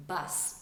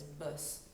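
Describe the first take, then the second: First: Said in the usual way. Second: "bus" with a tight, rounded French vowel; French-accented "bus", squashed at the front of the mouth. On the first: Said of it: "bus came out as bus". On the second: Shown as a demonstration. Coach showing how the vowel came out, French "bus". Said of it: "came out as bus".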